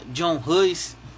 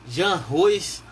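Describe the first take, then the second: First: The first name is said the English way. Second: The first name is said the Czech way. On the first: "Tem gente que chama John Hus" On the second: "uma forma de falar o nome dele mais próxima do real"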